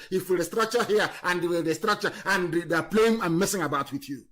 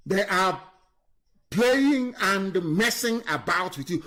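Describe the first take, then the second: First: Said in the usual way. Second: Slow, spell out playing and messing; deliberate, weighty slowdown; slow emphatic repeat. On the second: Real, not acted. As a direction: drive each word home slowly.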